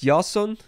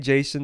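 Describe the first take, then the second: First: The name is pronounced in a Greek style. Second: The name is pronounced in the usual English style. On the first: "that's just how I pronounce it. ... I tried to do the Greek one" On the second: "If you want to say Jason, that's fine"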